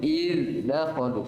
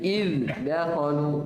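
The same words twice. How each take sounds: No difference in how they are said.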